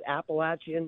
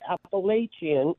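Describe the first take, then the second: First: The middle syllable sounds like 'apple'. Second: The middle syllable does not sound like 'apple'. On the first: This is how the locals say it. The speaker calls it right. "pronounced just like that" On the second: This is how outsiders say it. The speaker calls it wrong. "not Appalachian"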